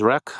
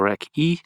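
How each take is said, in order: First: It is said as one syllable ending in k. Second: It is said as two syllables, k then ee. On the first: "I heard a couple of people pronounce it as Rec" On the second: "or Rec E"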